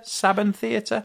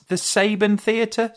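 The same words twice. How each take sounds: First: Saban said with a short A, SAB-un; trying SAB-un for Saban. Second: Saban said with a long A, SAY-bun; questioning SAY-bun for Saban. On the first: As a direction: pronounce Saban with the A of "cab". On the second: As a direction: pronounce Saban to rhyme with "raven". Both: Shown as a demonstration. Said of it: "I never knew how to pronounce it".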